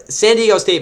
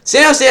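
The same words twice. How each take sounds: First: Said in the usual way. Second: "San Diego" slurred, middle syllables swallowed; rushed slip. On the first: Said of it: "My bad". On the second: Real, not acted. Host rushing through game picks, "San Diego" garbled. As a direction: run "San Diego" together, dropping the "Die". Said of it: "I'm talking so fast".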